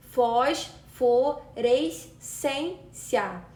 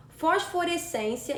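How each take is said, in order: First: "fosforescência" drawn out slowly, syllable by syllable. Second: Said in the usual way. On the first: Shown as a demonstration. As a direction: stretch "fosforescência" out to show the stressed syllable. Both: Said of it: "possui a penúltima sílaba tônica".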